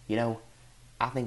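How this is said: It is said in an imitation of another man's voice.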